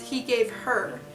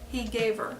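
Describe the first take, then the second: First: The H in 'her' is clearly pronounced. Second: The H in 'her' is dropped, linking smoothly. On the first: The speaker calls it wrong. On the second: The speaker calls it right.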